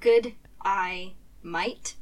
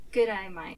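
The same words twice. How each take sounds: First: Real Australian. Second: American fake Australian. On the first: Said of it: "if you say that too fast". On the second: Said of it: "What was that one that you mentioned?". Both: Shown as a demonstration.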